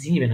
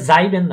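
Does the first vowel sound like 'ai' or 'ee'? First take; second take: ee; ai. First: The first vowel sounds like 'ee'. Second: The first vowel sounds like 'ai'. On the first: The speaker calls it right. "হয় জিবেন হয়েছে" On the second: The speaker calls it wrong. "এটা যাইবেন না"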